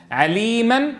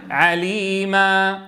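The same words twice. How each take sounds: First: عليما said at normal pace, the tanween still sounded; normal reading. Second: عليما slowed right down, ending on a drawn-out alif; stop demo. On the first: Teacher contrasting reading and stopping. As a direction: say عليما with its nunation. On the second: Teacher demonstrating the stop on a long alif. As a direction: hold the final alif of عليما for two beats. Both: Shown as a demonstration. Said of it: "نعوض عن تنوين النصب".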